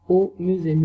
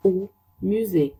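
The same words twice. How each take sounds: First: Au musée at normal speed, a bit louder on au; quick second take of au musée; normal-pace repeat. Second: Au musée drawn out, weight on musée; slow first take of au musée; very slow French model. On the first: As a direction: say au musée briskly. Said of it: "repeat at normal pace". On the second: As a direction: stretch au musée slowly. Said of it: "slow model then repeat". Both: Shown as a demonstration.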